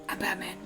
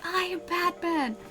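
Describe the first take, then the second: First: The line is said quietly, not yelled. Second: The line is yelled loudly. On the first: The speaker calls it right. "You're more just sort of like" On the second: The speaker calls it wrong. "You don't yell, "I am Batman.""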